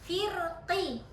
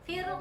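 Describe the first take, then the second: First: The word ends with a full, clear vowel. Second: The word ends with a brief, faint vowel. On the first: The reciter pronounces the vowel fully without stopping. The speaker calls it wrong. "Kalau jelas kan tahqiq" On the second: The reciter stops while hinting at the vowel. The speaker calls it right. "kalau dia baca uh, rum"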